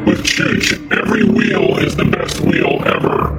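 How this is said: It is read in a put-on voice.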